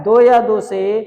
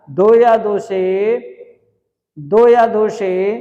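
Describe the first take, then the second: First: Said in the usual way. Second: "दो या दो से" drawn out slowly, word by word; slow emphasis. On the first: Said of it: "क्या कह रहा है?". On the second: Shown as a demonstration. Teacher telling students to pay attention, very slowly. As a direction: stretch out "दो या दो से" so it sinks in. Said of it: "ध्यान देना".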